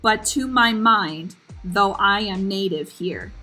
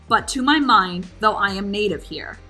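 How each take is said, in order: First: The line is spoken slowly, drawing out the rhythm. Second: The line is spoken at a normal conversational pace. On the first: "Let's slow it down a little bit more" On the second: "Even in a normal speaking tone"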